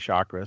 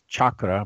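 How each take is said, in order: First: The word is said the anglicized way. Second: The word is said the Indian way. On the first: The speaker calls it wrong. "I've been mispronouncing it for so many years, I'm just happy with saying chakra" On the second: The speaker calls it right. "when the Indians pronounce it, it's chakra"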